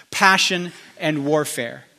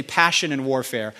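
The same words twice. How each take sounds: First: Each word slow and weighty, Passion and warfare stretched out; slow emphatic repeat. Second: Said in the usual way. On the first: Shown as a demonstration. Prophet to the couple, slow weighty Passion and warfare. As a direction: lean on Passion and warfare, drawing it out slowly. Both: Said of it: "I heard the Lord say".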